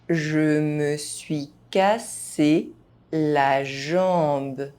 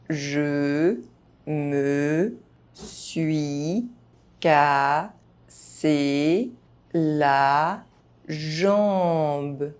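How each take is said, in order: First: The phrase is spoken at normal speed. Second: The phrase is spoken very slowly. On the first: This is the pace learners should use. "at a normal pace" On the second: Each syllable can be heard clearly. "very slowly"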